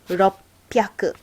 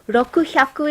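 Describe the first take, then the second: First: It has a doubled p sound before 'yaku'. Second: It has a full 'ku' followed by an h sound. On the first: The speaker calls it right. "so it becomes roppyaku" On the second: The speaker calls it wrong. "Rokuhyaku is hard to say"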